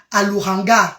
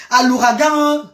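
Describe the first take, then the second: First: "l'ouragan" slipped as "louranga", nasal moved forward; mispronounced. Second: "l'ouragan" said out right, lou-ra-gan, nasal ending; corrected pronunciation. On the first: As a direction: say "l'ouragan" with the n too early, lou-ran-ga. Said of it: "je ne prononce pas bien". (« l'ouragan » mal prononcé, « louranga ») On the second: Corrects her own slip. (« l'ouragan » corrigé, lou-ra-gan) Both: Real, not acted.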